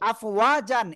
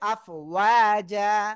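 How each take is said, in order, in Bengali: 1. শব্দটি 'an' ধ্বনি দিয়ে শেষ হয়। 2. শব্দটি লম্বা 'a' স্বরধ্বনি দিয়ে শেষ হয়। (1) "আফওয়াজান এটা না হয়ে" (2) "হবে আফওয়াজা"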